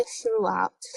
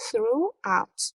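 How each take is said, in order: First: Said in the usual way. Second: "throughout" as two separate beats; syllable by syllable. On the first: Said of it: "اگه چند بخش داشته باشن". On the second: Shown as a demonstration. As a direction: pause between "through" and "out". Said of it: "مثلاً دو بخش داره".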